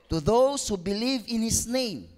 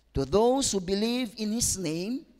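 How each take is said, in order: The two takes are said the same way.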